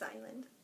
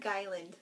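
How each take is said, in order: First: The word begins directly with a vowel sound. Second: The word begins with a hard g sound. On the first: The speaker calls it right. "It's Island" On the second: The speaker calls it wrong. "it's not Guyland"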